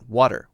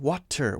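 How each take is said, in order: First: The middle consonant is a light D sound. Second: The middle consonant is a crisp T sound. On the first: The speaker calls it right. "We're still saying a very light D sound" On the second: The speaker calls it wrong. "we're not saying water"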